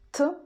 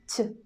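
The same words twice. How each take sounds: First: The consonant is hard, not palatalized. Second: The consonant is soft, palatalized. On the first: "hard sound T" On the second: "soft sound T"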